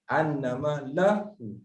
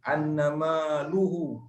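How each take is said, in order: First: The vowel after the l is a. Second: The vowel after the l is not a. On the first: The speaker calls it right. "Dia kena la" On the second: The speaker calls it wrong. "Tak, tak"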